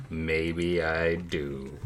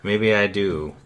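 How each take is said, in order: First: Low, slow, quiet and teasing; slow ominous murmur. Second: Said in the usual way. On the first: Acted. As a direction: drag it out softly, like a threat.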